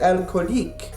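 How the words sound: It is said with a Parisian French accent. "A Parisian might say"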